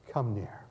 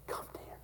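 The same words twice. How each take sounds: First: Gentle invitation. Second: Whispered softly; tender whisper. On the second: Joseph whispering to his brothers, tender whisper. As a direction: breathe it as a tender invitation. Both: A narrator's reading. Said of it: "with compassion and tears in his eyes".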